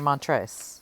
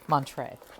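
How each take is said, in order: First: The S sound is pronounced in the name. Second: The S sound is left silent in the name. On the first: The speaker calls it wrong. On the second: The speaker calls it right.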